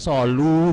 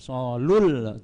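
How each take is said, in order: First: A long, held vowel is said without the l. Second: A short vowel runs straight into the l. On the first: The speaker calls it wrong. "tidak solu, bukan begitu" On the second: The speaker calls it right. "Solul, ya"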